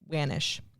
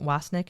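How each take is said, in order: First: The name ends with a soft 'nish' sound. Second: The name ends with a hard 'nick' sound. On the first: The speaker calls it right. "it should be Wanish" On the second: The speaker calls it wrong. "maybe I'm pronouncing it Wasnick"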